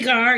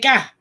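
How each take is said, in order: First: It is said the speaker's own way. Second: It is said as an r-less 'ka'.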